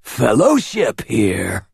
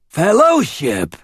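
First: Slow, hissing snake voice; hissed. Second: High, slow rasping snake cry; rasped. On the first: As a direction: hiss the words like a serpent. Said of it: "the word a hiss". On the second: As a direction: rasp it out like a snake man. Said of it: "he rasped". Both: A narrator's reading.

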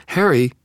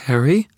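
First: High, loud falling exclamation; acted shocked cry, pitch high then falling; horrified cry. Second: High, loud, frightened rising call; acted fearful question, pitch leaping up; terrified question. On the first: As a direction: cry the name out in dismay. Susan cries out to Harry, terrified. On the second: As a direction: call out uncertainly in fear. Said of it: "whispered a terrified voice". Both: A narrator's reading.

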